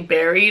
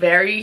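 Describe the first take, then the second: First: The word starts with a b sound. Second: The word starts with a v sound. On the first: The speaker calls it wrong. "he would say berry, like it wouldn't come out right" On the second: The speaker calls it right. "instead of saying very"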